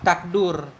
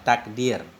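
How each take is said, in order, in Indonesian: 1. Vokal setelah d adalah u. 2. Vokal setelah d adalah i. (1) "Wa dhammihi atau dhammah dal" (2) "Takdir kita baca bikasrid dal"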